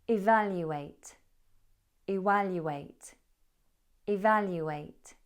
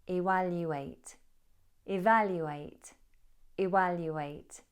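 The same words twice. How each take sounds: The two takes are said the same way.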